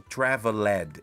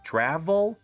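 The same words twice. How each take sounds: First: The ending is said as an extra syllable. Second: The ending is said as a consonant only. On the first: The speaker calls it wrong. "Aqui eu não falo traveled" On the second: The speaker calls it right. "eu falo traveled e depois o D no final"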